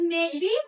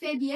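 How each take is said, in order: First: The pitch falls first and then rises. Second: The pitch does not fall and then rise. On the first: The speaker calls it right. "Turun dulu, kemudian nah, naik" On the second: The speaker calls it wrong. "bukan maybe ya"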